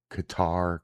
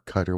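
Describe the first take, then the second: First: "Qatar" said softly as kuh-TAR, stress on the end; "Qatar" as kuh-TAR, tentative; unsure pronunciation. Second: "Qatar" said as KUH-ter, stress on the front; "Qatar" as KUH-ter, dismissive; shrugging pronunciation. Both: Real, not acted. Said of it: "whatever the fuck you say that shit".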